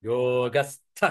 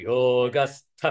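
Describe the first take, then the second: Both takes have the same delivery.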